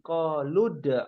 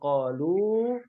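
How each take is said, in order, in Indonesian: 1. Berakhir dengan vokal pendek, disambung ke kata berikutnya. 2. Berakhir dengan vokal panjang, tidak disambung. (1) "dibacanya pendek" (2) "tadinya qalu"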